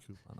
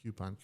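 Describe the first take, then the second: First: First syllable of "coupon" like coo; "coupon" with a plain oo, no y sound; "coupon" as koo-pon. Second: First syllable of "coupon" like cue; "coupon" with a y glide after the k; "coupon" as kyoo-pon. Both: Shown as a demonstration. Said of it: "Is it coupon or coupon".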